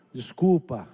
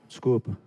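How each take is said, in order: First: Said in the usual way. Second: Low, mumbled sulky sorry, half-hearted; a kid forced to apologise, muttering it; grudging apology. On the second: Retold or imitated. Child mutters a sulky sorry to brother. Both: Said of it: "Não, pede direito".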